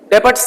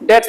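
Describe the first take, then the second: First: The b sound is pronounced in the word. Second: The b sound is left out entirely. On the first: The speaker calls it wrong. "डेबट्स नहीं बोलेंगे" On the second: The speaker calls it right. "बी silent रहती है, डेट्स बोलेंगे"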